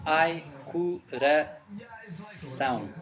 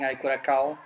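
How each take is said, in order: First: The last syllable starts with an S sound. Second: The last syllable starts with a K sound. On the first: The speaker calls it right. "It's pronounced like an S. And the tilde is a small n. It's uh, nasal" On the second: The speaker calls it wrong. "it's not as bad as saying I Curacao"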